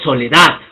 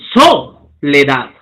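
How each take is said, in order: First: The stress falls on the last syllable. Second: The stress falls before the last syllable. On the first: The speaker calls it right. "digo soledad. ¿No? La curva asciende" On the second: The speaker calls it wrong. "No digo soledad"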